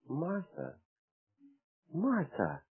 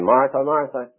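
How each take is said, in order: First: It is said softly and gently. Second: It is said sharply and impatiently. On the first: The rebuke is tender and caring. The speaker calls it right. "the Lord said so gently" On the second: The rebuke is exasperated and scolding. The speaker calls it wrong. "The Lord, I don't think, talks that way"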